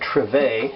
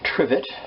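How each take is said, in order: First: The word is said in a fancy, affected way. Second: The word is said in a plain, ordinary way.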